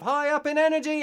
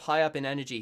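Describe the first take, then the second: First: High energy. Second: Said in the usual way. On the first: Shown as a demonstration. Showing what the relaxed narrator is not, high energy. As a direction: voice leaps high and loud. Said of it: "kind of high up in energy".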